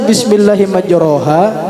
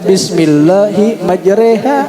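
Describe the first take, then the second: First: The second syllable has an open 'a' vowel. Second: The second syllable has a tilted 'e' vowel.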